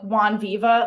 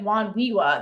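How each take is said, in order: First: The V is sounded as a v. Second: The V is sounded as a w. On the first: "we would pronounce the V's as the" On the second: "They pronounce it as W's"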